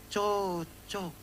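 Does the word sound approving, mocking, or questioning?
mocking. It is said in a mocking, ironic way. The bad people deserve each other. "Tapi kalau kita di Kupang ada yang bilang begini"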